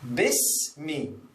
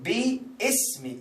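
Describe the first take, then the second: First: It is said joined as one word. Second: It is split into bi and ismi. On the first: The speaker calls it right. "you cancel the alif and you connect this with this" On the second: The speaker calls it wrong. "they pronounce like bi-ismi ... That is wrong"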